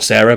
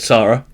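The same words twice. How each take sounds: First: "Sarah" said as SAIR-uh; first vowel of "Sarah" as in "air"; SAIR-uh pronunciation. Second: "Sarah" said as SAH-ruh; SAH-ruh pronunciation. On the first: Host clarifying whose wife it is, "Sarah" as SAIR-uh. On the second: Host correcting the wife's name, "Sarah" as SAH-ruh. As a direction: open "ah" in the first syllable of "Sarah". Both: Shown as a demonstration. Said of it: "who is not Sarah, but Sarah".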